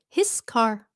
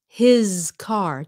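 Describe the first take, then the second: First: The first word ends with a hissing S sound. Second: The first word ends with a buzzing Z sound. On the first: The speaker calls it wrong. "chứ không phải là" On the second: The speaker calls it right. "Z chứ không phải là S sound nhé"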